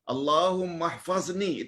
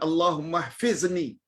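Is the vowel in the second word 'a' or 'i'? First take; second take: a; i. First: The second word has an 'a' vowel: hfazni. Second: The second word has an 'i' vowel: hfizni. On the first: The speaker calls it right. "Itu yang betul" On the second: The speaker calls it wrong. "Bukan Allahumma hfizni. No"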